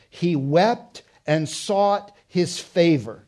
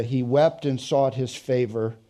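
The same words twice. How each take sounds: First: Slow, weighted stress on wept, drawn out; emphatic reading. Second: Said in the usual way. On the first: Acted. Preacher dwelling on Jacob's weeping, slow and emphatic. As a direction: lean hard on "wept", slowly.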